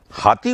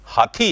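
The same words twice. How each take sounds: First: हाथी said with a plain t, no breath; the common lazy हाथी; wrong unaspirated t. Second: हाथी with a breathy aspirated थ; correct aspirated th. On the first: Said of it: "हाथी बोलते हैं". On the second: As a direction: give हाथी a puff of air on थ. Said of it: "जबकि हाथी है". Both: Shown as a demonstration.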